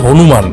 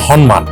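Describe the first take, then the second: First: The name has its common everyday pronunciation. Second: The name has its careful original pronunciation. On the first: The speaker calls it wrong. "উচ্চারণটা কিন্তু হনুমান নয়" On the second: The speaker calls it right. "Actually উচ্চারণটা হচ্ছে হনুমান"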